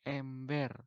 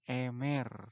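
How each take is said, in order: First: A clear b sound is heard after the m. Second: No b sound is heard after the m. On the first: The speaker calls it right. "Eta nganggo huruf vokal E teleng" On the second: The speaker calls it wrong. "sok aya nu nyebut kieu emer"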